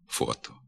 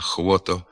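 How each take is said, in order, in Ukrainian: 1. Слово починається зі звуку «f». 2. Слово починається зі звуку «hv». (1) "слід вимовляти" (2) "його заміняють двома звуками «х» і «в»"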